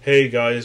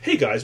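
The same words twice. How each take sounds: First: The voice is flat and low in energy. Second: The voice is lively and high in energy. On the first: This is how the voice used to sound. The speaker calls it wrong. "as monotonous as it used to" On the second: This is how the voice sounds now. The speaker calls it right.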